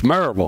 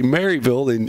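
First: The name is said clipped, with syllables run together. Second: The name is said carefully, every syllable clear. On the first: This is how locals say it. The speaker calls it right. "you say it just like we all say. It's Maryville" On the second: This is how outsiders say it. The speaker calls it wrong. "They'll say Maryville"

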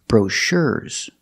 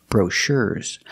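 Both takes have the same delivery.

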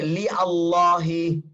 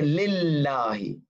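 First: The a of Allah is kept as separate vowel. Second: The a of Allah is dropped, l's joined. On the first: The speaker calls it wrong. "So I don't say li Allahi" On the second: The speaker calls it right. "I chop off the a of Allah. And I say lillahi"

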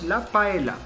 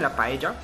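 First: Paella is pronounced with French sounds. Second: Paella is pronounced with Spanish sounds. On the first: "pero le decimos la paella" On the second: "eso es de España, la paella"

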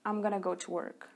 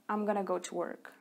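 First: The words are contracted and run together. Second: The words are contracted and run together.

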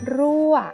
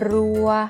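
First: The tone falls from high to low. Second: The tone is mid and level. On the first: "ผันด้วยวรรณยุกต์เอกก็คือไม้เอกจะออกเสียงโท" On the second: "พื้นเสียงนั้นเป็นเสียงสามัญ"

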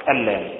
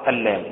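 Both takes have the same delivery.

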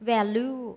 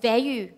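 First: The word is said in a Thai style. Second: The word is said in an English style. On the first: The speaker calls it wrong. "คนไทยออกเสียงว่า, value, ผิดค่ะ" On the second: The speaker calls it right. "ตัวนี้ออกเสียงว่า"

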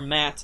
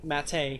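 First: The vowel sounds like the one in 'cat'. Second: The vowel sounds like the one in 'gate'. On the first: "I think it's actually pronounced Matt" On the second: "so I pronounce it Mate"

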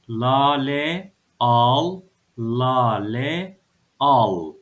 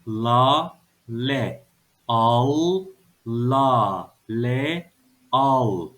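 First: It is read quickly as whole words. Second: It is read slowly, syllable by syllable. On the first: "Hadi biraz daha hızlı okuyalım" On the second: "Bir daha okuyoruz"

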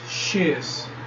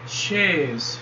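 First: It is said as one contracted syllable. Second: It is said as two full words. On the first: "forma contraída" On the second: "forma não contraída"

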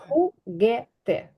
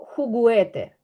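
First: No u sound is pronounced after the g. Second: A u sound is pronounced after the g. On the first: The speaker calls it right. "я кажу хугете" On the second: The speaker calls it wrong. "я не кажу хугуете"

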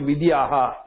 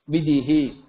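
First: The final h is followed by an 'a' vowel. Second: The final h is followed by an 'i' vowel. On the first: The speaker calls it wrong. "some people vidyaha. It is not aha" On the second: The speaker calls it right. "When it is with e, ihi"

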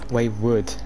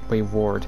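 First: The second syllable sounds like 'wood'. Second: The second syllable sounds like 'ward'. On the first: The speaker calls it wrong. "No, because it's not wood, is it?" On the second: The speaker calls it right. "It's Wayward"

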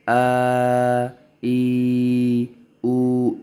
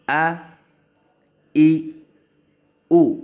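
First: The vowels are stretched out long. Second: The vowels are short and not stretched. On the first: The speaker calls it wrong. "ये totally wrong है, स्ट्रेच नहीं करना" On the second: The speaker calls it right. "Make sure कि आपको थोड़ा सा भी स्ट्रेच नहीं करना"

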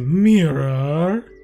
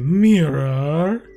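First: The word is said in a fancy, posh way. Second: The word is said in a fancy, posh way.

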